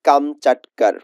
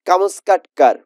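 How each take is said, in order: First: The middle consonant sounds like 'ch'. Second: The middle consonants sound like 'sk'. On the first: The speaker calls it right. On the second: The speaker calls it wrong.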